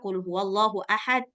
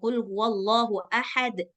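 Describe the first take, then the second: First: The final d is stopped without any bounce. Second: The final d is released with an echoing bounce. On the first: The speaker calls it wrong. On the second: The speaker calls it right.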